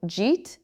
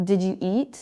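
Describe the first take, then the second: First: "Did you eat" squashed into one syllable, jeet; casual contracted "Jeet"; reduced form. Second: "Did you eat" with all three words sounded; careful, unreduced "Did you eat"; full form. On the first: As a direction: say it as a single "Jeet". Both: Shown as a demonstration. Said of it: "sounds like".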